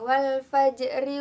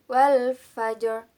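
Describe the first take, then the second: First: The r is light and thin, with a vowel after. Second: The r is heavy and thick, ending the word. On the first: The recitation continues without stopping. "dibaca wasol, maka menjadi tarkik atau tipis" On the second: The recitation stops at this word. "jika dibaca wakof, menjadi tafkhim atau harus dibaca tebal"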